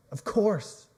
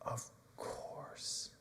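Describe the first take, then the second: First: Said in the usual way. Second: Whispered, wounded of course; hurt whisper. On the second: Acted. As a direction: breathe it out, almost no voice. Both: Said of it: "And Peter again says".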